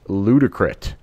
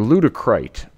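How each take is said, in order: First: The last syllable has a short 'i' sound. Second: The last syllable has a long 'i' sound.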